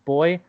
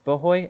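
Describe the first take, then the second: First: The word is said with one syllable. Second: The word is said with two syllables. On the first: The speaker calls it right. "It's pronounced boy" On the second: The speaker calls it wrong. "It's not pronounced bohoy"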